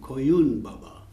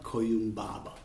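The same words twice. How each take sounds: First: The stress falls on the second syllable of Koyun. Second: The stress falls on the first syllable of Koyun. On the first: The speaker calls it right. "with the accent of un" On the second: The speaker calls it wrong. "and not"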